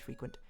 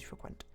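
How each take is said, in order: First: The verb is said the American way. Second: The verb is said the British way. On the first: "it's the American pronunciation is frequent" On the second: "the British one is to use frequent"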